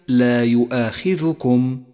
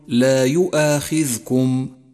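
First: The dhal carries a short u vowel. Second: The dhal is silent, with no vowel. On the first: The speaker calls it right. "فالذال مضمومة وليست ساكنة" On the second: The speaker calls it wrong. "ومن الخطأ أن تقول"

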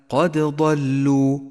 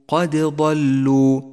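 No difference in how they are said.

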